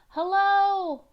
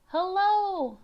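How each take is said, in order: The two takes are said the same way.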